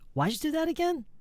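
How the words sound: The pitch rises all the way to the end. The speaker asks for the answer to be repeated. The speaker calls it right. "it has to rise infinitely"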